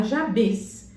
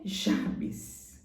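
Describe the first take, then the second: First: "Jabes" said with a closed "-bes" ending; wrong Jabes with a closed E. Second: Slow "Jabes" with the end as "-bis"; Jabes, ending like Jabis. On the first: Showing viewers the wrong reading, "Jabes" with a closed "-bes". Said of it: "não é pra você falar Jabes". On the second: Correcting the prayer's name, slow "Jabes" ending "-bis". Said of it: "Só que é Jabes". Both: Shown as a demonstration.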